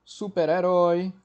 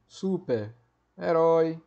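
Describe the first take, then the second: First: Said in the usual way. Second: Super-herói stretched very slowly, each part of super-herói held apart; slow, spelled out. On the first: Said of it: "por exemplo, anti-horário". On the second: Shown as a demonstration. Teacher repeating super-herói slowly so students hear the hyphen. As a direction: drag the word out so the hyphen is clear.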